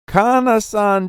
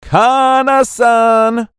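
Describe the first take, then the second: First: Said in the usual way. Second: Loud, high, long-drawn name; confident call-out. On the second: A narrator's reading. Boy calling her first name at the beach, loud confident call. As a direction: sing out the name boldly and slowly. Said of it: "he confidently called out".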